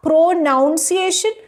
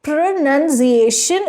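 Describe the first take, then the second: First: "pronunciation" misspoken as "pro-NOUN-ciation"; drawn-out "pronunciation", second syllable rhyming with "town"; wrong pronunciation. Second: "Pronunciation" with second syllable said "nun", slowly; careful, syllable-by-syllable "Pronunciation" with a short "nun"; correct pronunciation. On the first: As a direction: say "pronunciation" slowly with "noun" in the middle. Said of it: "And not pronunciation". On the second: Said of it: "Pronunciation is correct". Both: Shown as a demonstration.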